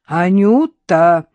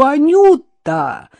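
First: Louder, slow drawn-out warning call; a drawn-out warning call of the name. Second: Much higher, louder, slow drawn-out cry; horrified shout. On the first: Innokenty warns his dog off the narrator, slow and loud. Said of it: "предостерегающе заговорил Иннокентий". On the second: Innokenty, horrified, shouts as his dog eats takeout. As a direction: cry the name in horror. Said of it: "в ужасе закричал Иннокентий". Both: A narrator's reading.

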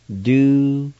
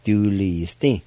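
First: Du-li-sti said syllable by syllable, higher and louder; careful pronunciation. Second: Du-li-sti run together at a natural pace; Du-li-sti as one flowing word; relaxed pronunciation. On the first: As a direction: sound out Du-li-sti carefully, each syllable clear. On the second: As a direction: say Du-li-sti smoothly, joined up. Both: Shown as a demonstration. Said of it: "pronounce the names of the months".

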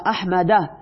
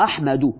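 First: احمده ending on an a sound; accusative ending. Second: احمدو ending on a u sound; nominative ending. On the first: Teacher reading the example to students, "احمده" with final a. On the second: Teacher giving students the other reading "احمدو" with u. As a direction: close "احمدو" on a u. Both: Shown as a demonstration.

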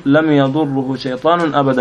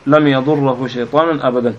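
First: "yadurruhu" for يضره, damma on the ra. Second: "yadurrahu" for يضره, fatha on the ra. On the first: Student reading hadith to the sheikh, يضره with damma, "yadurruhu". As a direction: say يضره as "yadurru-hu", with a u before the final hu. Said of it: "بالضم يعني ولا؟". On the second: Student rereading after a listener's correction, يضره with fatha, "yadurrahu". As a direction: say يضره as "yadurra-hu", with an a before the final hu. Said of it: "آه، بالضم وبال-، النصب". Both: Real, not acted.

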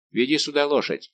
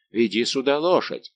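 First: Said in the usual way. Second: Louder shouted order; loud shouted command; thundering voice. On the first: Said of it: "подсказал Д'Артаньян". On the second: A narrator's reading. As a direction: bellow it down like thunder. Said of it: "крикнул Планше громовым голосом".

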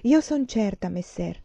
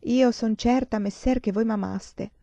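First: Absently recited verse, starting high and dropping away; absent-minded. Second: Recited sonnet line, higher and drawn out at the end; verse recitation. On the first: Professor repeats the verses while pacing, absent-minded. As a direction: let the verse trail off, mildly distracted. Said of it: "ripetendo di nuovo distratto quei versi". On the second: Pupil recites a sonnet for the professor, verse recitation. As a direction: recite the old verse slowly, lifted in pitch. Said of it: "com'è la seconda quartina di quel sonetto". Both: A narrator's reading.

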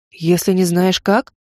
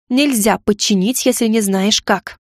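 First: Slow disbelieving echo rising on как; echoing question. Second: Slow, final, every word weighed; categorical. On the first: Mage echoes the heroine's rule, slow and incredulous. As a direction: repeat her words back, puzzled. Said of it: "Ты что, моим эхом заделался?". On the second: Heroine declares the rule to the mages, slow and categorical. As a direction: lay it down as law. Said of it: "категорично заявила". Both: A narrator's reading.

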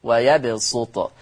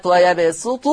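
First: ويبسط said wa-yabsutu with a heavy s; pure sad. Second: ويبسط said wa-yabsutu with a thin s; pure seen. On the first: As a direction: thicken the s of ويبسط into an emphatic sad. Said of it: "فيقرأ بالصاد الخالصة". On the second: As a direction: keep a light seen in ويبسط. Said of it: "يقرأ بالسين الخالصة". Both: Shown as a demonstration.

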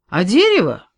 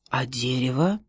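First: Loud echo of дерево with a falling tune; the forester repeats it loudly; emphatic echo. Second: Whispered timid question; a whispered wary boy; hushed question. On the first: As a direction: take up the question boldly. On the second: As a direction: breathe the question under your voice. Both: A narrator's reading.

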